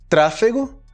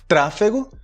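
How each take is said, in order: No difference in how they are said.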